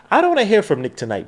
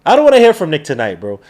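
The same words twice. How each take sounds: First: Said in the usual way. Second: "wanna" pushed, the whole line louder; louder repeat. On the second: Real, not acted. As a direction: say it again and hit it harder.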